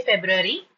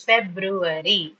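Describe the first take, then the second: First: "February" run together as casual feb-ru-ry; everyday connected "February", not split up; quick pronunciation. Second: "February" slowly split as feb-ru-a-ry; syllabified. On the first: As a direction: say "February" quickly, syllables merged. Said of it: "while quickly pronouncing". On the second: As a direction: give "February" four separate, measured syllables. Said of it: "while syllabifying". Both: Shown as a demonstration.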